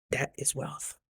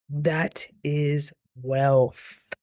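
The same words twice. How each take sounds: First: Softer aside, dropping right down; quiet, understated punchline; hushed emphasis. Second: Very slow, each word stretched; slow, weighty repeat, word by word; drawn-out emphasis. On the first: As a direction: say it softly, letting it sink in. Repeats the line for emphasis. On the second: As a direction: draw out WEALTH with a long held ending. Drags out the repeated line. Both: Retold or imitated.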